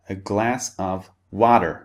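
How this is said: The T in water sounds like a D. "the T sound in water becomes a D sound"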